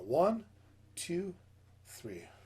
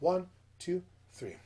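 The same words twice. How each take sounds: First: It is counted at a slow tempo. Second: It is counted at a medium tempo.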